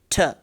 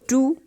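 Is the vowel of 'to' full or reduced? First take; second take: reduced; full. First: The word has a weak reduced vowel. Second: The word has a full vowel sound. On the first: It is used before a consonant. "So why I'm using now ta? Because there is a, uh, a consonant coming upcoming" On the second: It is used before a vowel. "to and ta"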